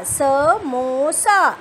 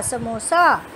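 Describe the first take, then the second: First: samosa drawn out very slowly, each syllable held; slowly drawn-out samosa for a reading class; stretched teaching word. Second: Said in the usual way. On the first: Shown as a demonstration. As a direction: lengthen samosa so children hear the ओ. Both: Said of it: "और last word".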